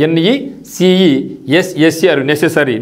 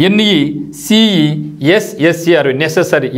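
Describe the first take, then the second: Both takes have the same delivery.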